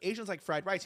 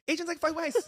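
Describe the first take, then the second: First: It is said in a normal voice. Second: It is said in a put-on accent.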